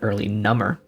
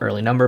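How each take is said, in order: First: Number is said as numb-er, meaning more numb. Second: Number is said as the ordinary counting word. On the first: The clue read the way it is intended. The speaker calls it right. "but early number" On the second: The clue read the way you first think. The speaker calls it wrong. "Or not early number"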